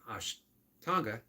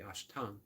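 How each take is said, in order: First: The word ends with a final vowel sound. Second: The word ends without the final vowel sound. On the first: "instead of Ashtanga" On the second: "They don't pronounce the A"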